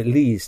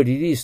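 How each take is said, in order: First: "リリース" as English release, R first, then L; correct English pronunciation. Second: "リリース" with the same Japanese tapped r twice; Japanese katakana pronunciation. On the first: Teacher models the required pronunciation, careful English R and L. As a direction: say "リリース" with rounded R and tongue-tip L. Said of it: "ってならないといけないから". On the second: Teacher warns students of the mistake, katakana-style pronunciation. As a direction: flatten "リリース" into katakana sounds, no English R or L. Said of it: "と言ったら違いますもんね". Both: Shown as a demonstration.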